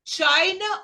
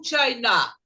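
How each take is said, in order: First: "China" stressed up front, CHI-na; slow demo, weight on the first syllable of "China". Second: "China" stressed at the end, chi-NA; stress on last syllable. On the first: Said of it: "a primeira sílaba vai ser a sílaba mais forte". ("China" forte no começo, CHAI-na) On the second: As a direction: offer "China" with the weight on its final syllable. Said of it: "você fica assim". ("China" forte no final, chai-NÁ) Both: Shown as a demonstration.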